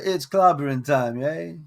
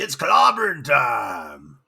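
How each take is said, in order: First: It is said in a soft, light voice. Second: It is said in a tough Bronx voice.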